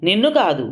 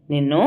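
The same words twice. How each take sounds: First: నిన్ను hit and falling; నిన్ను emphasised in self-correction; stress on నిన్ను. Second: Said in the usual way. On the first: A narrator's reading.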